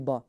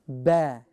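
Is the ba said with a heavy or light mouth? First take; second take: heavy; light. First: It is said with a full, heavy mouth. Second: It is said light, with the mouth stretched. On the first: The speaker calls it wrong. "they try to say it in a full mouth to say ba. It should not be ba" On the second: The speaker calls it right. "You stretch. You can stretch your mouth a little bit"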